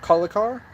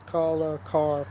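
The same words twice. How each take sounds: First: The name is said quickly, run together. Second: The name is said slowly, syllables apart. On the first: "I wonder if it's fast. Like"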